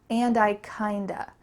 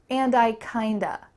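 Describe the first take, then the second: The two takes are said the same way.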